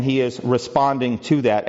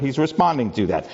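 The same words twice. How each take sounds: First: Said in the usual way. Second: "responding" given the main stress; emphasis on RESPONDING. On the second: Shown as a demonstration. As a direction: lean on the word "responding". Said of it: "I want to emphasize the word".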